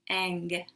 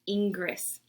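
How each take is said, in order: First: The name is said with French sounds. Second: The name is said like an English word. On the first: The speaker calls it right. "In French, that's pronounced ang" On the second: The speaker calls it wrong. "It's not Ingress"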